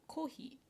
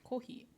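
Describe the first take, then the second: No difference in how they are said.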